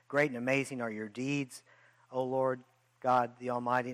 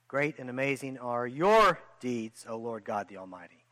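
First: It is read plainly, without added emphasis. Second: It is read with added, forceful emphasis.

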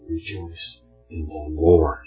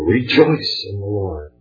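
First: The word Lord carries the stress. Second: The word rejoice carries the stress. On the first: Joy should come from the Lord and nothing else. The speaker calls it right. "The context of this verse demands that the emphasis be placed on the Lord" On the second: The act of rejoicing itself is the focus. The speaker calls it wrong. "If you emphasize rejoice, it takes away from where our joy should be"

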